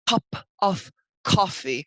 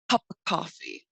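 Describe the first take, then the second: First: Of is said as a full, separate word. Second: Of is reduced to a weak schwa. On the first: The speaker calls it wrong. "we do not say" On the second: The speaker calls it right. "We just say cup of coffee"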